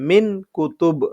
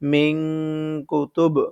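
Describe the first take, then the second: First: The n is short with no nasal hum. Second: The n is held with a nasal hum. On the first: The speaker calls it wrong. "মিন কুতুব পড়তে পারতাম, তাহলে সঠিক উচ্চারণটা কিন্তু হবে না" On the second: The speaker calls it right. "এই কারণে পড়তে হবে মিং কুতুব"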